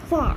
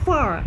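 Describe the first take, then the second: First: It is said with the final r sound dropped. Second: It is said with the final r sound pronounced. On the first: "ব্রিটিশে আটটা বাদ চলে যাবে ফর" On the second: "American হবে ফর"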